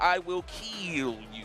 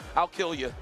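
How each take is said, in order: First: Both words of 'I will' are said in full. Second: 'I will' is shortened into one syllable. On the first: The speaker calls it right. "You got to say it like that" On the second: The speaker calls it wrong. "Don't go"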